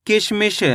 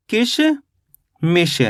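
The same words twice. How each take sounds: First: Said in the usual way. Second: "किशमिश" very slowly, split in two with a long pause; syllable by syllable. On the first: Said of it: "मिश बोलेंगे तो". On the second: Shown as a demonstration. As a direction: draw out "किशमिश" as किश, then मिश. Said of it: "तो अपने मिलके बन गया ये".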